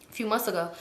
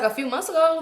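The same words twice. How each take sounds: First: Said in the usual way. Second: "A few months ago" lifted high as a question; questioning echo. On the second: Retold or imitated. Girl querying when he came home, "A few months ago" high and questioning. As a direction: echo "A few months ago" back in higher-pitched disbelief. Echoes his answer as question.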